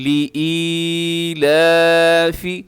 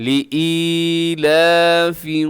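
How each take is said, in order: The two takes are said the same way.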